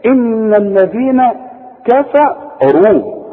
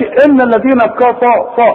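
First: "إن الذين كفروا" very slow, noon hummed, kaf and fa thin; correct, light letters. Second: "كفروا" with a thick, heavy fa, loud and high; wrong, heavy fa. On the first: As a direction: give each letter its due, "كفروا" light. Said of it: "إذا هنقول دي بقى إيه؟". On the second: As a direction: overdo the fa in "كفروا". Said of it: "ما تقولش". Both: Shown as a demonstration.

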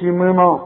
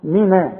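First: منا with a dark, rounded final a; wrong heavy noon. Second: منا with a thin, open na; correct light noon. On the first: Quran teacher shows what not to say in منا, heavy noon. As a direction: thicken the na of منا. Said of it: "اذا ما تقولش". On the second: Quran teacher corrects the vowel of منا, light noon. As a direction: keep the end of منا light. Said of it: "كل نون في القرآن نا". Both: Shown as a demonstration.

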